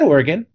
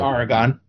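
First: Oregon is pronounced the way local residents say it. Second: Oregon is pronounced the way outsiders say it. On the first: "I said it the way people who live there say it" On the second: "I didn't say it the way I grew up saying it"

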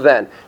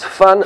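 First: The word is said with English-style sounds. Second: The word is said with Dutch sounds. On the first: The speaker calls it wrong. "That's not Van" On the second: The speaker calls it right. "that's how it's pronounced in Dutch"

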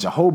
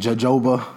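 First: The second J sounds like an H. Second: The second J sounds like a J. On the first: The speaker calls it right. "The second one is pronounced like a H" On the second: The speaker calls it wrong. "Some people probably been pronouncing it jojoba. It's not jojoba oil"

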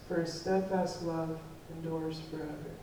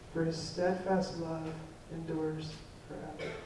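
Both takes have the same delivery.

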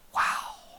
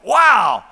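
First: It is whispered softly. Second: It is exclaimed in a full voice.

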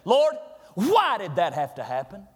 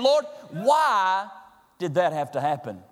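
First: It sounds accusing, questioning God. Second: It sounds like a sincere, humble question.

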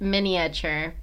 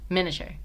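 First: Every vowel is said, giving four syllables. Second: The second i is dropped, giving three syllables. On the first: "technically, that's how it's spelled" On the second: "Say it faster, like"

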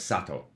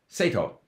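First: The name is said the Japanese way. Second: The name is said the English way, from spelling. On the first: The speaker goes by what is heard. The speaker calls it right. "they hear him pronounce his own name as Sato" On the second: The speaker goes by how the name is written. The speaker calls it wrong. "because it's written S-A-T-O ... that should be Sato"

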